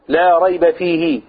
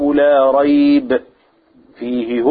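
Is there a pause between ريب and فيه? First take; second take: no; yes. First: There is no pause until after فيه. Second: There is a pause after ريب, before فيه. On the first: There is no doubt at all in the whole book. The speaker calls it right. "وتقف على فيه" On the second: In it is guidance, as if only parts of the book guide. The speaker calls it wrong. "أنا وقفت كده على إيه؟ على لا ريب"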